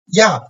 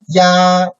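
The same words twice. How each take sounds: First: The pitch falls sharply from high to low. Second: The pitch stays high and level.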